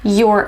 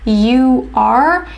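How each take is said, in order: First: It is said as one contracted syllable. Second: It is said as two full words. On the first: "you would hear your" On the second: "instead of saying you are"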